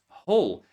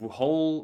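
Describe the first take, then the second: First: The word starts with no W sound. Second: The word starts with an audible W sound. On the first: The speaker calls it right. "but it's whole" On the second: The speaker calls it wrong. "So many students mispronounce and they say something like whole"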